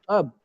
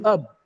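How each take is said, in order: First: The syllable is weak and reduced. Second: The syllable is weak and reduced.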